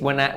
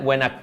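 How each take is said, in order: Both takes have the same delivery.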